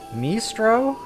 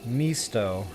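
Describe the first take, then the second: First: An R sound follows the T. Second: No R sound follows the T. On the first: The speaker calls it wrong. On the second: The speaker calls it right.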